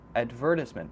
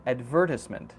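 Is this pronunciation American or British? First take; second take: British; British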